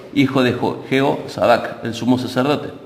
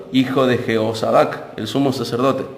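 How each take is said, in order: Both takes have the same delivery.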